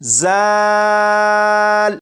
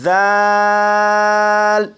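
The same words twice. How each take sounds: First: The first consonant has a sharp, whistling hiss. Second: The first consonant is soft, with no whistling hiss. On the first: The speaker calls it wrong. "अगर इस हर्फ को सीटी की आवाज़ के साथ पढ़ें" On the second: The speaker calls it right. "इसे भी नरमी से पढ़ेंगे यानी सीटी की आवाज़ के बगैर पढ़ेंगे"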